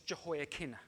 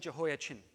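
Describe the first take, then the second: First: The name is said with a 'k' sound. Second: The name is said with a 'ch' sound. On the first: The speaker calls it right. "because there's no ch sound in the Hebrew language" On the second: The speaker calls it wrong. "I'm going to say this wrong, deliberately wrong"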